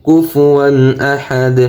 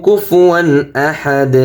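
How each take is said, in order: Both takes have the same delivery.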